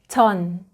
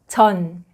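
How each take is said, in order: No difference in how they are said.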